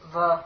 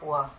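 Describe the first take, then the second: First: The consonant is said like a v. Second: The consonant is said like a w. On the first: "the va also has the pronunciation wa" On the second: "the pronunciation wa"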